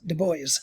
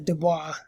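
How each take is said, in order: First: The name is pronounced the Americanized English way. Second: The name is pronounced the French way. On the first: The speaker calls it right. "he has it pronounced Du Bois" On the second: The speaker calls it wrong. "not the Du Bois, as it would be pronounced in, in French"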